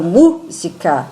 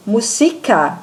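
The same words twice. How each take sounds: First: "música" with MU punched, MÚ-sica; stress on first syllable. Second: "música" mispronounced as muSIca, stress on SI; stress on the middle syllable. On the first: Teacher showing students the strong syllable, MU stressed in "música". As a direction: hit the MU of "música", then let the rest drop. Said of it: "é o mu". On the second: Teacher showing students a shifted stress, SI stressed in "música". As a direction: lean on the SI of "música". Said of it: "é o si". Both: Shown as a demonstration.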